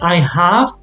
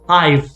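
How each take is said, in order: First: Both words are said fully and separately. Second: The words are joined into one short syllable. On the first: "instead of saying I have" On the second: "more common to say I've, like together"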